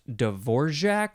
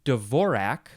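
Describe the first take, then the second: First: It is said with a zh sound inside. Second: It is said without a zh sound inside.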